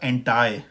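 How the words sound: It ends with an 'eye' sound, American style.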